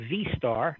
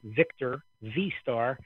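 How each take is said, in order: First: Said in the usual way. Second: Victor V-Star said slowly, word by word; spelled out slowly. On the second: Shown as a demonstration. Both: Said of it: "like Victor V-Star".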